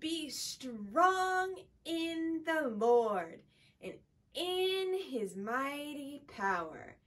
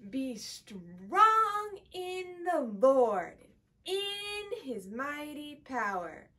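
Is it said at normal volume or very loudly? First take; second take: normal volume; very loudly. First: It is said at normal volume. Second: It is said very loudly.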